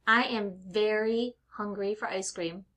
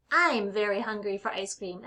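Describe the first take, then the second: First: I AM as two separate words; uncontracted I am. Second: I'M run into one syllable; contracted I'm. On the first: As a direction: say "I am" in full. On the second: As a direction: say "I'm" as one easy word. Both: Shown as a demonstration.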